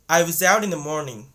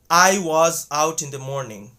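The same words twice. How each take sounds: First: 'Was' has a short uh vowel. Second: 'Was' has a full ah vowel. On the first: The speaker calls it right. "they're going to say" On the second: The speaker calls it wrong. "people don't say"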